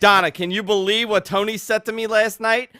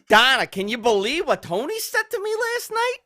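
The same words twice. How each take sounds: First: It is read in the speaker's ordinary voice. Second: It is said in a put-on character voice.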